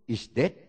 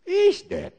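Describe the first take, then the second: First: Said in the usual way. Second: High, louder shouted Is dead; shouted repeat. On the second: Shown as a demonstration. Preacher declaring the enemy dead, shouted "Is dead". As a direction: hurl out Is dead much higher and louder.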